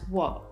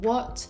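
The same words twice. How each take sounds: First: The final T is cut short and unreleased. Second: The final T is fully released. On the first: "rather you'll hear this word as what" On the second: "you won't hear it as a true T, as in what"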